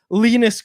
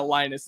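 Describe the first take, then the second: First: The name is said with a Swedish pronunciation. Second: The name is said with a plain English pronunciation. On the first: It copies how Swedish broadcasters say the name. "that's how they say it on an S H L broadcast" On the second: It is the simple everyday way to say the name. "it's just Linus"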